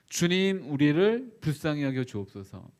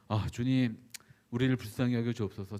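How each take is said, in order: First: The prayer sounds desperate and pleading. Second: The prayer sounds calm, composed and dignified.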